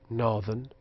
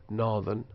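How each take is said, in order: Both takes have the same delivery.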